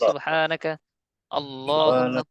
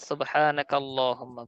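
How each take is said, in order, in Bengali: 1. শব্দ দুটি একটু থেমে আলাদা করে পড়া হয়। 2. শব্দ দুটি কোনো বিরতি ছাড়া সহজভাবে মিলিয়ে পড়া হয়। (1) "আপনারা যদি এভাবে পড়েন ... ভুল হবে না" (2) "একসাথে মিলিয়ে পড়লে ... ভালো হবে"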